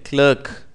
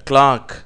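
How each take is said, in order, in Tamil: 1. உயிர் ஒலி 'er' போல் ஒலிக்கிறது. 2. உயிர் ஒலி 'ah' போல் ஒலிக்கிறது. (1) "அமெரிக்கர்கள் இதை கிளர்க் என்று சொல்லுகிறார்கள்" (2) "இப்படியாக கிளாக் என்று உச்சரிக்கப்படுகிறது"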